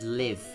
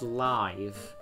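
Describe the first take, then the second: First: The vowel is short, rhyming with give. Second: The vowel is long, rhyming with five. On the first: The speaker calls it wrong. "but it said live" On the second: The speaker calls it right. "It should have said live"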